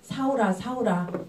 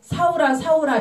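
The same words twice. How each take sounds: First: The name is called in a loving voice. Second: The name is called in an angry voice. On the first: The caller longs for a lost child. The speaker calls it right. "그 사랑스러운 목소리로" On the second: The caller is furious at the person's actions. The speaker calls it wrong. "막 화난 목소리로"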